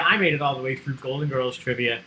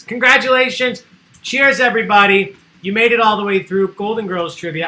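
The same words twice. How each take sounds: First: Said in the usual way. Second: Loud, higher, cheering the players; excited congratulations. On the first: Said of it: "host repeats for herself". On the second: Real, not acted. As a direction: celebrate like a game show host. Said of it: "host congratulates winners".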